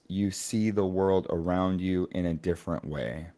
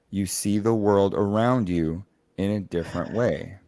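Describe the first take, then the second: First: It is read plainly, with little emotion. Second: It is read with more interest and emotion.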